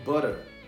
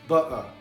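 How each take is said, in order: First: The t sounds like a quick r. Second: The t is dropped. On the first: "eles pronunciam o T com som de R" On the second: "Cockney Accent, que eles não pronunciam o T"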